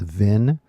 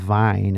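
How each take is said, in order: First: The syllable has a short 'i' vowel, like vin. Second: The syllable has a long 'eye' vowel, like vine. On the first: The speaker calls it right. "it's vin" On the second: The speaker calls it wrong. "it's not vine"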